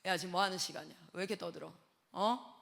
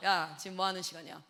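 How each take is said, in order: First: Low, softer stern scolding; lowered stern voice. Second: Lowered stern voice. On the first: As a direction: growl it low like a strict teacher. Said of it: "목소리 깔면". (아이들을 꾸짖는 낮게 깐 목소리) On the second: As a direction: voice dropped low and stern. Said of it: "제가 딱 목소리 깔면". (목소리를 낮게 깐 엄한 호통) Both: Retold or imitated.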